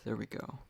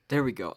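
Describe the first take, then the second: First: Said in the usual way. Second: Louder, perked-up sign-off; livened up. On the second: Shown as a demonstration. Podcaster forcing a lively ending for listeners, louder and upbeat. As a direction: pump it up for a cheerful ending. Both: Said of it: "I livened it up at the end".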